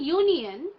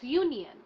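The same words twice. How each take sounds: First: The O is sounded like 'o'. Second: The O is sounded like 'a'. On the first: The speaker calls it wrong. "It's not union" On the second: The speaker calls it right. "we produce it as A"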